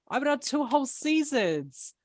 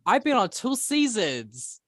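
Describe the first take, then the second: First: Higher, louder indignant protest; mock rant. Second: High, loud indignant complaint; mock rant. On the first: Player mock-ranting about her two seasons. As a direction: stretch whole seasons in a huffy rant. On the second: Player mock-ranting to the group about her experience. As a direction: puff up and rant, pitch way up. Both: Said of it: "This is my rant era".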